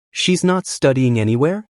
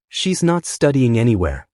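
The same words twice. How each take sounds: First: "She's not studying anywhere?" rising at the end; questioning echo. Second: Said in the usual way. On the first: A narrator's reading. Mom echoes her son's answer, questioning rise at the end.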